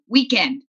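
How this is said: It is said in an American way. This is the old home way. "which is how we say it in America"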